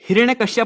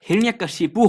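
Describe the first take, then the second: First: The name ends with the sounds 'kashyap'. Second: The name ends with the sounds 'kashipu'. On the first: The speaker calls it wrong. "हिरण्यकश्यप नहीं दोस्तों" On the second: The speaker calls it right. "हिरण्यकशिपु होता है"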